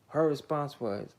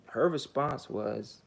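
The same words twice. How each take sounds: The two takes are said the same way.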